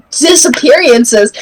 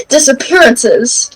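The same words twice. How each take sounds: First: "disappearances" with an extra ee sound before "-ances"; mispronounced word. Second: Said in the usual way. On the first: Real, not acted. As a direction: stumble into "disappearances" as disa-peery-ances. Slip, corrected right after.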